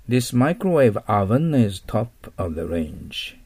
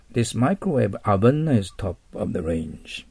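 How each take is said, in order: First: Slow, with oven said as a short "avan"; teacher reading the example sentence aloud slowly; slow model reading. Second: Slow, oven said as a short "avan"; teacher repeating the sentence for learners; model reading again. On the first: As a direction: read oven as avan, not オーブン. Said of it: "これでオーブンと読まないように、アバンと読みます". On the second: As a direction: read it slowly for students to copy. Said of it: "アバンと読みます". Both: Shown as a demonstration.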